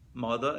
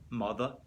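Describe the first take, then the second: First: It is said in a standard accent. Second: It is said in a Brooklyn accent.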